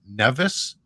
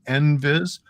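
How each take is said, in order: First: The word starts with 'neh' before 'vis'. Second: The word starts with 'en' before 'vis'. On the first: Some other people say it this way. "I've heard some people call it NEVIS" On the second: This is the form the speaker is used to. "I'm calling it NVIS"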